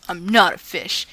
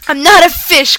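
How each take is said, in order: First: Grumbled. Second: Yelled back. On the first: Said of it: "crossed his arms and grumbled". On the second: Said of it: "Quentin yelled back". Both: Acted.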